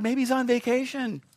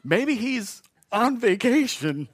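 First: Higher mock suggestion, dropping at the end; taunting. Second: Very slow, drawn-out, stifling laughter; laughing taunt. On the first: Elijah jeering at Baal's prophets, higher and mocking. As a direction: tease with a raised voice. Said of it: "Elijah began to taunt them". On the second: Retold or imitated. Preacher replaying Elijah's joke, slow and chuckling. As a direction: tease while trying not to laugh. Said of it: "He says".

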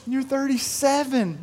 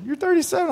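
First: Higher, slow mock-tearful child voice; imitating crying daughter. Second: Much higher mock wail. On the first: Seven-year-old wails to her dad, mock-tearful. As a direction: play the sobbing little girl, lightly. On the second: Daughter's tears peak at her dad, much higher mock wail. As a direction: let the crying child's voice break upward. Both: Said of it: "uncontrollable crying".

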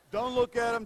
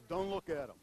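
First: Louder repeat. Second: Said in the usual way. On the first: Retold or imitated. Pastor repeating his advice to Rod, louder. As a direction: say it again much louder, pressing "look". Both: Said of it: "first advice I told Rod was".

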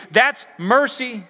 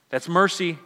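First: "That's" hit hard, slow and loud, falling; slow emphatic stress. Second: Said in the usual way. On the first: Shown as a demonstration. Preacher driving home the point, slow punch on "That's". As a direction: land "That's mercy" slowly, "That's" punched high.

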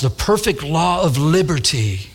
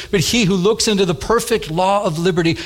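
First: Slow, relishing repeat of the phrase; savouring the phrase. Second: Said in the usual way. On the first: Shown as a demonstration. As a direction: linger slowly over "perfect law of liberty". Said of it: "don't you like how that, that, that sounds?". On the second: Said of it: "it says".

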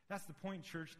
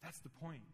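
First: Higher, stressing "That's"; emphatic repeat. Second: Said in the usual way. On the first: Shown as a demonstration. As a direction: drive home "That's the point" to the church.

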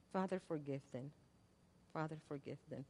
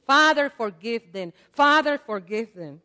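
First: Much softer, lower prayer; hushed prayer. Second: Louder, pleading prayer; fervent prayer, loud. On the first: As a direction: breathe it out like a final plea. Prayer repeated softly after loud. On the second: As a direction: call it out to heaven. Preacher voicing Jesus' prayer. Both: Acted.

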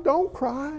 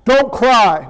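First: "Don't cry" said softly, gently. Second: "Don't cry" said louder, curt and firm; harsh "Don't cry". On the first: Jesus comforting the grieving mother, softly. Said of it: "could you hear the Lord speaking that". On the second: The wrong way to tell the mother not to cry, loud and curt. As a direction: bark "Don't cry" as a command. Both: Shown as a demonstration.

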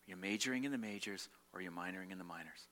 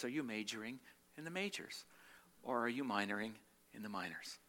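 First: Said in the usual way. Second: Calm gentle rebuke. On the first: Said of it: "repeating friend's saying". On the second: Retold or imitated. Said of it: "looks at me very calmly and says".

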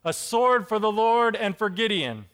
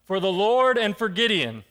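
First: Loud rousing shout of warriors; rally the troops with it; a sword-raised war cry; battle cry. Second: Mock battle cry. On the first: A narrator's reading. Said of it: "they shouted". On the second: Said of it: "blow yours and shout".

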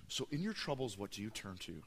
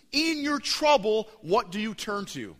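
First: Low, quiet, intimate ask; soft question. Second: Booming question. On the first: Preacher asks the church again, quiet and close. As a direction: let the question sink in gently. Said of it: "quiet repeat of the question". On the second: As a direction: throw the question out to the whole church. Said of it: "opening question to the church". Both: Acted.

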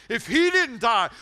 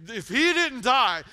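First: He punched, slow and louder; stress on he. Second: He punched, slow and loud; stress on he. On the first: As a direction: hit he hard and slow. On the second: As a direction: hit he slowly. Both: Real, not acted.

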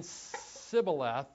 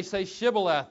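First: "Sibboleth" starting on a drawn-out S; missing H. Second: "Shibboleth" with a clear SH; correct pronunciation. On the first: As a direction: say SIB for SHIB, dropping the H. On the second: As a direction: sound the H in "Shibboleth". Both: Acted. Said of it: "couldn't say the letter H".

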